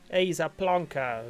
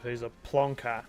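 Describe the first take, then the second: First: Louder, slower plonker in a put-on British accent; mock British accent. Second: Said in the usual way. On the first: Australian streamer imitating the British, mock British accent. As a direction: ham up a British accent, slowly. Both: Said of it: "as the British would say".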